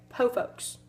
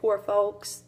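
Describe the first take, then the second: First: The R in poor is dropped entirely. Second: The R in poor is clearly pronounced. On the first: "they would say po folks" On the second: "instead of saying poor folks"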